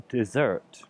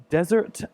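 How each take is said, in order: First: "dessert" stressed on ZERT; second-syllable stress. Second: "desert" stressed on DEZ; first-syllable stress. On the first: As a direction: hit the last syllable of "dessert", slowly. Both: Shown as a demonstration. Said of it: "the stress is on a different letter".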